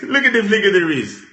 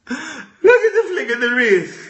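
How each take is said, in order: First: Said in the usual way. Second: Laughing. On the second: Real, not acted. Repeated line, laughing cry.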